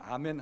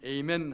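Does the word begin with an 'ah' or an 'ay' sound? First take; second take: ah; ay. First: The word begins with an open ah vowel. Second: The word begins with an ay diphthong. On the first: This is how Koreans say it. "우리는 아멘 하지만" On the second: This is how Americans say it. "미국에서는 에이멘 합니다"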